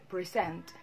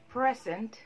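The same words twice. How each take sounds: First: The stress is on the second syllable. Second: The stress is on the first syllable. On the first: It is used as a verb. "present is actually a verb" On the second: It is used as an adjective. "Present is an adjective"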